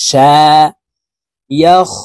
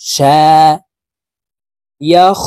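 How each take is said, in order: Both takes have the same delivery.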